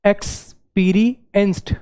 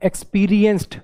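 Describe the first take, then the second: First: experienced said slowly, syllable by syllable; slow syllable-by-syllable word; split into syllables. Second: Said in the usual way. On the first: Shown as a demonstration. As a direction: break experienced into its three beats. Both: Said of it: "तीन बार में बोलना पड़ रहा है".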